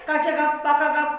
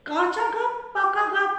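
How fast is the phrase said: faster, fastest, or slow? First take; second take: fastest; faster. First: The phrase is said at the quickest pace. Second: The phrase is said at a quicker pace. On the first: "আর একটু লয় বাড়াই" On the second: "লয় বাড়াই"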